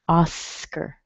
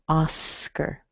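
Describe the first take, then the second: First: It is said with an English pronunciation. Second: The same.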